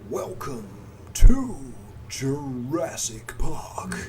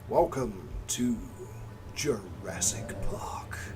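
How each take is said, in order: First: It is said in a put-on announcer voice. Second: It is said in a plain everyday voice. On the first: The speaker calls it right. "Let me think about what voice I should use for that" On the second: The speaker calls it wrong. "No, that's not right"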